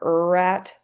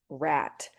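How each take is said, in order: First: An er vowel comes before the r sound. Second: The word begins directly with the r sound. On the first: The speaker calls it wrong. "if you say it incorrectly" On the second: The speaker calls it right. "You can hear the difference"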